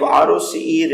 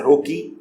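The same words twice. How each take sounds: First: "R O C E" said letter by letter; name each letter of "R O C E" separately; spelled-out abbreviation. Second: "roce" run together as one spoken word; acronym as word. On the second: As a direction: say "roce" as a word, not as separate letters. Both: Shown as a demonstration. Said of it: "also pronounced at".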